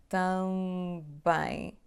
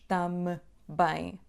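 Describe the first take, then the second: First: The nasal vowel runs straight into the B. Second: A separate closed-lip M comes before the B. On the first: The speaker calls it right. "Há só um som bilabial aqui, que é B" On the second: The speaker calls it wrong. "Não dizemos tam bem"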